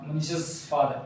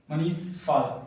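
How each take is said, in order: First: मनीष's said with an extra "s" sound as मनीषस father; wrong pronunciation demo. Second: मनीष said straight into father with no extra s; correct pronunciation demo. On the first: Teacher showing students the wrong way, extra s on मनीष's. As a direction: add an audible s after मनीष, the wrong way. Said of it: "ये गलत हो जाएगा". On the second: Teacher showing students the right way, no added s after मनीष. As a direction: run मनीष father together, just the sh sound. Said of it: "pronunciation इसका इस तरह किया जाता है". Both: Shown as a demonstration.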